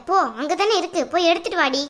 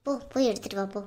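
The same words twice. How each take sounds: First: Sharp scolding order. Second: Lower, much softer push to go; mother hushes her daughter off to get the ring, quietly; hushed urging. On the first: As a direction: snap the order at her. Mother scolding daughter to fetch ring. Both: Acted.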